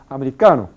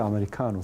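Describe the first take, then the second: First: The stressed syllable is louder, not longer. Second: The stressed syllable is drawn out longer. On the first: The speaker calls it right. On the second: The speaker calls it wrong. "No se dice"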